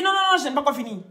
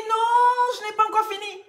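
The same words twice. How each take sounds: First: Rapid-fire, louder "Non, non, non"; acted hurried protest. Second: Acted loud protest. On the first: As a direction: interrupt fast as the insistent patient. Patient protests again in joke. (protestation précipitée, jouée) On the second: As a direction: cry out as the indignant patient. Patient protests in retold joke. (protestation criée, suraiguë, jouée)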